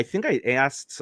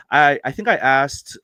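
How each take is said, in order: First: Slipping into a Midwestern accent; casual Midwestern twang on the words. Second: Said in the usual way. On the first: Real, not acted. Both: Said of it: "I don't know why I sounded so Midwestern there".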